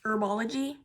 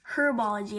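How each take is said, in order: First: It is said with an American pronunciation. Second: It is said with a British pronunciation. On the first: The speaker calls it wrong. "as Americans say" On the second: The speaker calls it right. "as the British say"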